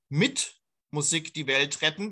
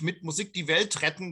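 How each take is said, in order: First: The stress falls on the word mit. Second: The stress falls on saving the world.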